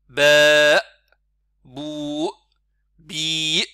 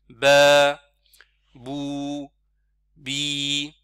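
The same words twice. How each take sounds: First: Each syllable ends with an abrupt glottal catch. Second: Each syllable fades out smoothly without a catch. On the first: The speaker calls it wrong. "bloquer le son à la fin ... Ça c'est en fait rajouter hamza" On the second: The speaker calls it right. "on arrête le son sans blocage brutal"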